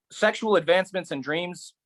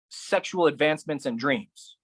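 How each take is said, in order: First: "Sexual" higher, ending on a rise; higher echo. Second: Said in the usual way. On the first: Acted. Poet echoing the list, higher and rising. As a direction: lift the repeat up, ending rising. Echoed phrase, second take.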